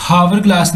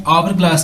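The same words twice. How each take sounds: First: "हावर glass" with an h at the start; H wrongly sounded. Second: "आवर glass" starting straight on the vowel; silent H. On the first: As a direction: say "हावर" with the h pronounced. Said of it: "हावर glass नहीं कह रहा". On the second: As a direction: say "आवर" with no h sound. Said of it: "आवर glass कह रहा हूँ". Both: Shown as a demonstration.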